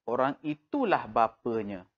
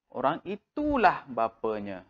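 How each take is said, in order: First: Said in the usual way. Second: Itulah leaned on with a falling tune; stress on itulah. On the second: Shown as a demonstration. Teacher stressing itulah for pupils. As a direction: push the word itulah. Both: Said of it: "kita tegaskan".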